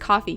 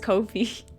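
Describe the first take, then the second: First: It is pronounced like the word coffee. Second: It is pronounced unlike the word coffee. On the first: The speaker calls it right. "was just supposed to be pronounced coffee" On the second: The speaker calls it wrong. "I still mispronounce it as Kofi"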